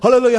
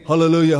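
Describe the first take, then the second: First: It is said fast. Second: It is said at a normal speed.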